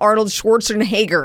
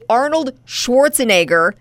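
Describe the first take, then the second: First: The name is said with an added H sound. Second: The name is said without an added H sound. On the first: The speaker calls it wrong. "not Arnold Schwarzenegger" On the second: The speaker calls it right. "It's Arnold Schwarzenegger"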